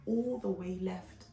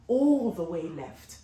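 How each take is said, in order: First: Said in the usual way. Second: Slow, louder, all pressed hard; emphatic repeat. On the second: Shown as a demonstration. Telling viewers how badly it went, emphatic and slow. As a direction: lean on "All" and drag it out.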